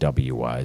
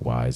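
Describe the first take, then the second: First: An extra W sound comes before 'wise'. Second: It is said simply as 'wise'. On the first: The speaker calls it wrong. "even though it looks like W-Wise" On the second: The speaker calls it right. "they pronounce it Wise"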